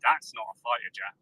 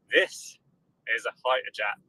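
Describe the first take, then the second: First: Said in the usual way. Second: This raised and held apart; stress on THIS. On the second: Retold or imitated. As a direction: hit "This" before a pause. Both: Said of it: "we go".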